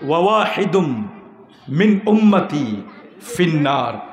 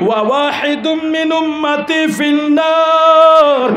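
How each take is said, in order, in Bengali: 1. এটা শান্ত, সমান সুরে বলা। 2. এটা প্রবল, উত্তেজিত আবেগ নিয়ে বলা। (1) "এবার ঠান্ডা মাথায় বলি" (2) "হুজুর আবেগে বলেছে"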